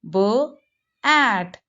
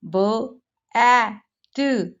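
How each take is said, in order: First: The word is broken into two separate parts. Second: The word is broken into three separate sounds. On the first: The speaker calls it right. "We have to read b, at" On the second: The speaker calls it wrong. "breaking in three parts"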